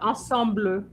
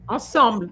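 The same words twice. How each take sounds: First: The word is said with more than two syllables. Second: The word is said with just two syllables. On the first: The speaker calls it wrong. "not ensemble" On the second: The speaker calls it right. "Two syllables"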